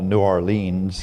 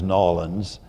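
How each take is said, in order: First: The name is said with all its syllables. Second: The name is squeezed into about two syllables. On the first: This is how an outsider says it. "a place that I used to call" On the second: This is how locals say it. "then I learned to pronounce as"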